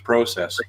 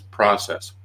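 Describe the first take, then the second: First: It is said in a British accent. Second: It is said in an American accent.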